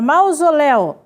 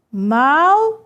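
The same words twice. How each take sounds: First: Said in the usual way. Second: "Mausoléu" read as mau, zo, léu with pauses; syllable by syllable. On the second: Shown as a demonstration. Teacher showing students how to read it, syllable by syllable. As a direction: break "Mausoléu" into three separate beats. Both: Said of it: "Veja como é que eu leio".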